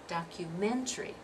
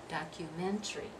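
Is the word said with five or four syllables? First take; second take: four; four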